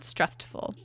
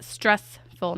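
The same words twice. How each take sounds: First: "stressful" with a stray t, like "strest-ful"; mistaken pronunciation. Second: "stressful" said slowly in two separate parts; deliberate self-correction on "stressful"; corrected pronunciation. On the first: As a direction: say "stressful" lower, as the slip "strestful". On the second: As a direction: carefully split "stressful" into "stress" and "ful". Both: Shown as a demonstration. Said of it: "not stressful".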